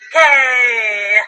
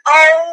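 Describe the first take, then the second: First: It is said weakly, trailing off. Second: It is said strongly, ending firmly.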